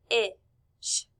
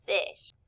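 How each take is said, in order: First: "f-ish" broken into f, short i, sh; sounded out. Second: Said in the usual way. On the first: Shown as a demonstration. Teacher showing class the letter sounds, sounded out. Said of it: "When we hear". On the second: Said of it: "all together".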